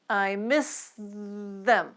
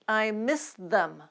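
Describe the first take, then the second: First: The sentence is spoken slowly. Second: The sentence is spoken at normal speed. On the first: "let's take them slowly at first" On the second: "Now let's move up to normal speed"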